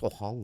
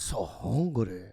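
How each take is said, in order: First: It is said in the speaker's ordinary voice. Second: It is said in a put-on foreign accent. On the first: These are private thoughts. "my internal thoughts are in my voice" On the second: This is the persona put on for others. "I'll just do the accent"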